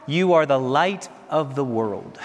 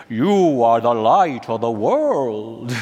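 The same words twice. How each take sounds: First: Said in the usual way. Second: Put-on slow, heavy Polish accent, each word drawn out; a fond impression of the Polish pope, Polish accent stretched slow; a slow, loving Polish-accented blessing on the crowd; Polish accent of John Paul II. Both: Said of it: "In his Polish thick accent".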